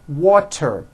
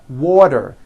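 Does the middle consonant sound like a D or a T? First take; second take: T; D. First: The middle consonant is a clear T sound. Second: The middle consonant sounds like a soft D. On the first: "Water is pronounced as" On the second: "The T turns into a D and the whole word is voiced"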